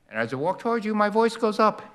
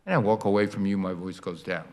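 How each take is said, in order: First: Exaggerated Doppler rise; voice rising. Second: Exaggerated Doppler fall. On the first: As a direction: pitch climbs high as he walks toward you. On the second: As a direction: sink the voice down like a sound moving off. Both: Shown as a demonstration. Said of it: "I have to demonstrate the Doppler effect".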